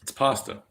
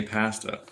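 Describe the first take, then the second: First: "pasta" with an open AH, PAHS-ta; Italian-style "ah" in "pasta"; correct pasta vowel. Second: "pasta" with a short A as in cat; mimicked short-vowel "pasta"; British-style pasta. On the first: Shown as a demonstration. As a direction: insist on PAHS-tuh for "pasta". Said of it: "why the fuck do you say pasta". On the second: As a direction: say "pasta" as PASS-tuh, like a Brit. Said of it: "why the fuck do you say".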